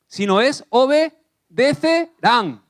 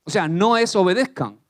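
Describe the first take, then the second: First: Obedecerán drawn out slow and high; obedecerán spoken slow and raised; stress on obedecerán. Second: Said in the usual way. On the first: Shown as a demonstration. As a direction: lean hard into obedecerán, slowly. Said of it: "la traducción más acorde". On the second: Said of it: "Obedezcan tiene un asterisco".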